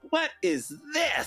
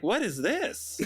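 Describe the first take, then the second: First: High, slow puzzled question; baffled what. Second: Laughing version. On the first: To the podcast hosts about the album cover, high baffled question. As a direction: act stunned by the cover. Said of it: "it's like". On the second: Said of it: "And then it's like". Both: Retold or imitated.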